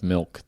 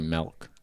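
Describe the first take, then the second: First: It is said with a standard accent. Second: It is said with a Californian accent.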